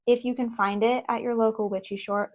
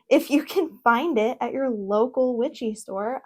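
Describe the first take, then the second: First: "shore" said with a sh sound in place of store; tongue slips into "sh" on "shore". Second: "store" said with a clean st sound; careful retake with bouncy emphasis, landing "store"; corrected retake. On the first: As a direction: stumble on the last word, saying "shore". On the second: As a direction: redo it deliberately, clear "st" on "store". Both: Real, not acted.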